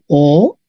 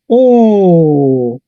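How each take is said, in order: First: Said in the usual way. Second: Very slow, held "O"; long O. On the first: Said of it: "Tenemos O". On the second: Shown as a demonstration. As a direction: draw the vowel "O" out long.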